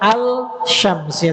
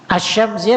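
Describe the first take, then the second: First: The L sound is pronounced before the sh. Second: The L merges into a doubled sh sound. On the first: The speaker calls it wrong. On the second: The speaker calls it right.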